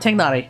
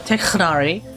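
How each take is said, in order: First: The middle consonant is a plain, soft sound. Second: The middle consonant is a harsh, throaty sound. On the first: "So I call him Tignari" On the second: "the Arabic sound, ... it sounds like I'm just coughing up phlegm"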